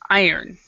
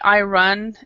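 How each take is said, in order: First: The second part sounds like 'earn'. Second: The second part sounds like 'run'. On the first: The speaker calls it right. "we actually pronounce this word "I-earn,"" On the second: The speaker calls it wrong. "It's not I run"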